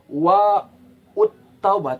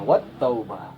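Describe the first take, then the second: First: An extra syllable 'ut' is heard before taubah. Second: Wa runs straight into taubah with no extra syllable. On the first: The speaker calls it wrong. "jangan dibaca wa ut taubah tidak" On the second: The speaker calls it right. "tapi langsung masuk wat taubah"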